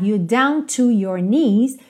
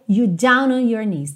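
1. O T em 'to' é claramente pronunciado. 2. O T é omitido, e 'down' se liga a 'to'. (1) "ao invés de ficar you down to your knees" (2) "ficou you down on your knees"

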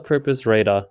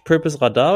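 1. Der Name wird mit englischen Lauten ausgesprochen. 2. Der Name wird mit deutschen Lauten ausgesprochen.

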